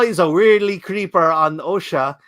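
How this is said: It is read in a put-on Asian accent.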